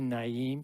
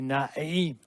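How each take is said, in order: First: It is said without a strained throat sound. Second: It is said with a strained throat sound. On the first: "you wouldn't say Naim" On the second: "you would say Naim"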